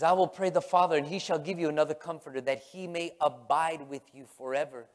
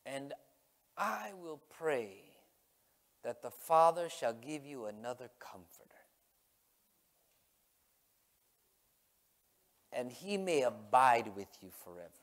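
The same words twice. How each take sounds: First: Brisker, louder Bible reading in one run; driving, preached scripture quote; emphatic scripture reading. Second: Unhurried, weighty scripture recital; solemn scripture reading. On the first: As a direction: read the verse out forcefully without lingering. Rereads the scripture with force. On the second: Reads scripture aloud. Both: Acted.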